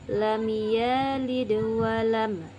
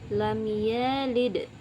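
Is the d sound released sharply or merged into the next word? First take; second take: merged; released sharply. First: The d bounces lightly and merges into the next. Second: The d is released sharply and not linked. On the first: The speaker calls it right. "dipantulkan tapi tidak terlalu keras dan melebur pada huruf selanjutnya" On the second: The speaker calls it wrong. "jadi bukan seperti itu ya"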